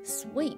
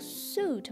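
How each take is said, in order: First: It sounds like sweet, with a w sound. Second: It sounds like suit, with no w sound. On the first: The speaker calls it right. "我们要说成sweet" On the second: The speaker calls it wrong. "是读suit 吗？suit 是错的"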